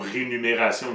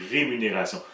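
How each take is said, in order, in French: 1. Le son n vient avant le son m. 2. Le son m vient avant le son n. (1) "Le M et le N vont être interchangés. ... n'existe pas" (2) "c'est rémunération"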